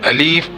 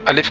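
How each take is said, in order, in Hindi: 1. दूसरा स्वर खींचकर लंबा है। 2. दूसरा स्वर छोटा है। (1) "अलिफ के लाम को खींचकर पढ़ना" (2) "अलिफ के बजाय"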